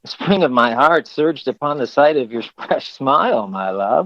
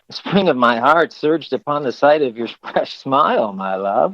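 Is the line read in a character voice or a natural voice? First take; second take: character voice; character voice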